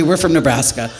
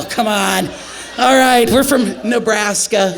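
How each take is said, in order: First: Said in the usual way. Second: Exasperated shout. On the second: Retold or imitated. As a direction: shout him down in disbelief. Shouting at flirting medic.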